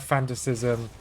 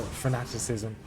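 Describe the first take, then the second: First: "fanaticism" said as FAN-tuh-si-zum, middle syllable dropped; "fanaticism" with stress on the first syllable, fan-tuh-sism; mispronounced. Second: "fanaticism" said as fuh-NAT-i-si-zum, stress on NAT; "fanaticism" carefully in full, fuh-NAT-ih-sizm; corrected pronunciation. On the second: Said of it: "uh, or fa". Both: Real, not acted.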